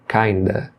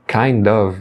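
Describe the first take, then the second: First: The words blend into one word ending in uh. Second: Both words are said fully, with a clear of.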